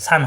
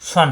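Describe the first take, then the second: First: সান said with a light open aa; wrong open vowel. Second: সন with a heavy rounded o-like vowel; correct rounded vowel. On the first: Teacher showing the mistake to avoid, open-vowel সান. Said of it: "সান হবে না". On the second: Teacher correcting the ending, heavy rounded সন. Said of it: "সন হবে, সান হবে না". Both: Shown as a demonstration.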